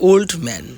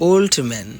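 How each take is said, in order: The two takes are said the same way.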